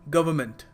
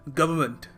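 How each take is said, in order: Both takes have the same delivery.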